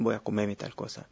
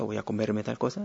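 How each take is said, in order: First: The r in comerme is dropped. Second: The r in comerme is pronounced. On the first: "la R del infinitivo cae cuando hay un pronombre átono" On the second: "En vez de decir"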